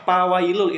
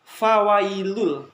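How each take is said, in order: First: The word begins with a p sound. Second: The word begins with a breathy f sound. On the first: The speaker calls it wrong. "bacanya bukan pa tapi fa" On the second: The speaker calls it right. "yang betul itu fa ada angin yang keluar di bibir kalian"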